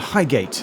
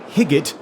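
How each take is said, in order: First: The first syllable has a long 'eye' vowel. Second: The first syllable has a short 'i' vowel. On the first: This is the usual way to say the name. "rather than Highgate" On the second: This is how the train announcements say it. "the onboard announcer on the Northern Line stock trains pronounce it more like Higgate"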